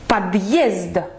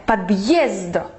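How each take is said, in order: First: The two syllables are clearly split apart. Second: The same.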